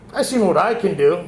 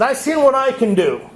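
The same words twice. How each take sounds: First: Said in the usual way. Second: A higher, louder booming God; God's voice. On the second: Retold or imitated. Man voices God answering his prayer, higher and louder. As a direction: speak as God, confident and raised. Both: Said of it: "God talk like that".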